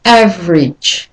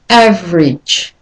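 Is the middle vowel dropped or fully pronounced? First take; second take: dropped; dropped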